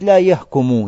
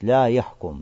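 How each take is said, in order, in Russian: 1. Глагол оканчивается на краткий конечный гласный. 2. Глагол оканчивается на согласный, без гласного. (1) "то есть будет повествовательная" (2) "С сукуном на конце, маджзум будет"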